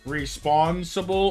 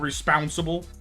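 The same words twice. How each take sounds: First: The second syllable has the vowel of 'paw'. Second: The second syllable has the vowel of 'pounce'. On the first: "like like paw" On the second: "like pounce"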